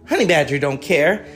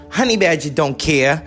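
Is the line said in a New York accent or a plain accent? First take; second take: plain; New York. First: It is said in the speaker's ordinary accent. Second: It is said in a New York accent.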